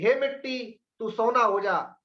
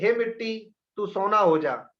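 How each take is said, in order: First: It is said with full excitement. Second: It is said with fading excitement.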